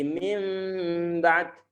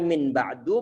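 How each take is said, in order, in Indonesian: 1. Bunyi sebelum b adalah m. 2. Bunyi sebelum b adalah n. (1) "menjadi min ba'd" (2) "Dari min ba'du"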